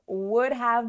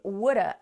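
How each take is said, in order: First: Have is pronounced in full as a separate word. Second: Have is reduced to a short uh sound. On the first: "Would have becomes would've" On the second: "and that becomes woulda"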